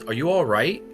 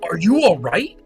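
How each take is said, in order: First: It is said as a calm, plain question. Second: It is said as an excited exclamation.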